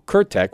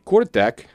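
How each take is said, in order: First: The name is said with a Slavic pronunciation. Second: The name is said with an English pronunciation.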